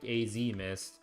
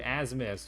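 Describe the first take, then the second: First: The first part is spelled out as letters "A Z". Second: The first part is said as one word, "as". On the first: The speaker calls it wrong. "it just looks like it was like a code name" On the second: The speaker calls it right. "it's pronounced like as mist"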